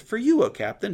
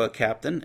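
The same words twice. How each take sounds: First: Higher and louder, rising on you; single him out with a lifted call; insistent high call. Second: Said in the usual way. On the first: Acted. Messenger insists to Jehu among the captains, high and emphatic.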